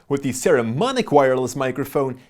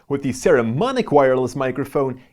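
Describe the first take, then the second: The two takes are said the same way.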